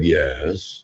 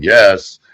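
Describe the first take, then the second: First: Soft, lower, offhand yes; a soft low yes from the inner voice; quiet answering self. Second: A louder, firmer yes; a louder yes from the inner voice; louder answering self. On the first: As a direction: answer back softly, half-bothered. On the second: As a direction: answer back with more force. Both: Acted. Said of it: "And myself said".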